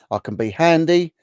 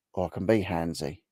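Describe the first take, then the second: First: Bright, higher and louder, all innocence; innocent handy. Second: Cheeky handsy. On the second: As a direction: lower and softer, a sly hint on handsy. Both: Pretend. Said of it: "he was handy or handsy?".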